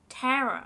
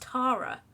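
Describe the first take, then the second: First: The first vowel is an 'eh' sound. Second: The first vowel is an 'ah' sound. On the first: This is how Americans say the name. The speaker calls it wrong. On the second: This is how the name's owner says it. The speaker calls it right.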